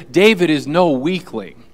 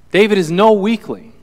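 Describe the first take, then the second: First: Said in the usual way. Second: "no" punched higher and louder; emphatic stress on no. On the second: Shown as a demonstration. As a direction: hit "no" hard, with more force. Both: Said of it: "repeated for emphasis".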